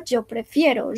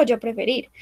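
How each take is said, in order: First: "yo prefiero" with stressed -fie- and final o; correct verb form. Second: "yo preferir" with the bare infinitive ending -ir; wrong verb form. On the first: Teacher gives the correct conjugated form, stress on -fie-. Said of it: "Digo yo prefiero". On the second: Teacher quotes the mistake to avoid, infinitive ending stressed. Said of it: "yo no digo". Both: Shown as a demonstration.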